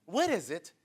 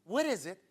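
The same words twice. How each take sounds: The two takes are said the same way.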